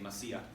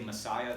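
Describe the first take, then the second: First: It is said the way Ugandan speakers say it. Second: It is said the familiar English way. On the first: "in Uganda today, they say Messiah" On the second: "they don't say Messiah"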